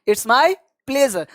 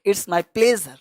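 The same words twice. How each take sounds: First: "it's my pleasure" said very slowly, "my" stressed; teacher repeating "it's my pleasure" slowly to be copied; slow model phrase. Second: Said in the usual way. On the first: Shown as a demonstration. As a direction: draw out "it's my pleasure" for learners. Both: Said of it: "तो इस तरह से आपको जवाब देना है".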